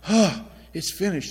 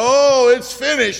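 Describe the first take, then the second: First: It sounds like a pitiful, weary realization. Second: It sounds like a despairing, helpless cry. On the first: The speaker is relieved the suffering is over. "a pitiful realization that his suffering was over" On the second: The speaker has given up hope. "the despairing cry of a helpless martyr"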